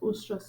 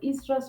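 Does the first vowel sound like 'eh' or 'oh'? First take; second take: oh; eh. First: The first vowel sounds like 'oh'. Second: The first vowel sounds like 'eh'. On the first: "pronounce it as ostrus" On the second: "one person may co- pronounce it as estrus"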